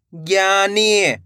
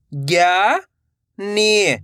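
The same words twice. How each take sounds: First: Said in the usual way. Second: "ज्ञानी" split into two long syllables. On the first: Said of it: "तो मिलके बन जाएगा". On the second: Shown as a demonstration. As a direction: draw out ज्ञा, pause, then नी in "ज्ञानी". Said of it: "एक एक अक्षर का उच्चारण". ("ज्ञानी" को तोड़कर, ज्ञा... नी)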